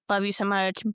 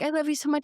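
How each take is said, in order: First: It sounds cold and dismissive. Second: It sounds warm and affectionate. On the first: The sender does not want to talk again. "they're saying it as like, love you so much, bye bitch, like mm-hmm. I don't ever want to talk to you again" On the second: The sender sincerely wishes the reader well. "I love you so much, I hope you have a good day"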